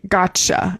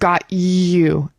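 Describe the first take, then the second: First: The T and Y blend into a ch sound. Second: The T and Y are said as separate sounds. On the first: "we're going to say gotcha" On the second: "instead of got you"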